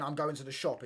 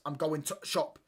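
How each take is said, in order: First: Said in the usual way. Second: Mock Yorkshire, "to shop" with the "the" swallowed; Yorkshire accent. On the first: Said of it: "So a basic sentence of saying". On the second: Shown as a demonstration. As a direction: imitate Yorkshire speech, clipping "the" out before "shop". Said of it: "they miss out so many words".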